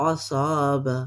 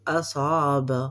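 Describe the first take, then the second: Both takes have the same delivery.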